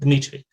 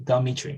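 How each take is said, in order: First: The d and m are joined without a vowel. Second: A short schwa separates the d and m. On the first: This is the original form of the name. "not Dmitry" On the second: This is how an English speaker says the name. "usually Dmitry"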